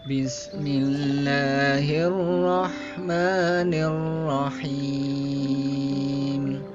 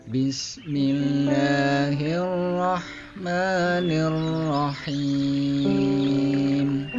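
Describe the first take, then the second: The two takes are said the same way.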